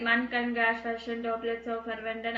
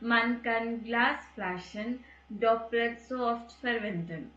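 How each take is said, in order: First: It is spoken in one flat, even tone. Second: It is spoken with pauses and changing tone. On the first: The speaker calls it wrong. "ஒரே மாதிரி மோனோட்டோனஸாக" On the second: The speaker calls it right. "Break கொடுத்தோம் இல்லை கொஞ்சம் டோனை மாற்றி சொல்லிட்டோம்"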